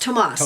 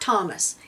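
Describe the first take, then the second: First: The name is said the Spanish way, Tomas. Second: The name is said the English way, Thomas. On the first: The speaker calls it right. "that spelling is pronounced Tomas" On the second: The speaker calls it wrong. "not not Thomas"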